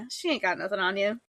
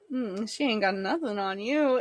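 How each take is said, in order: First: It is said in a casual, confident tone. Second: It is said in a creepy, suggestive tone.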